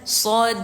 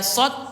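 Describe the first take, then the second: First: The d is released with a light bouncing echo. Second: The d is cut off without any bounce. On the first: The speaker calls it right. "dal sukun berarti bacanya sod" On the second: The speaker calls it wrong. "bukan dibaca sod rahu, bukan gitu"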